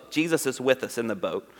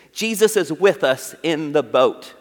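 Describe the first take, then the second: First: "Jesus is with us in the boat" said again much softer and lower; soft repeat. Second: Said in the usual way. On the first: Shown as a demonstration. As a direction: let the repeat sink in quietly. Repeats line, second softer.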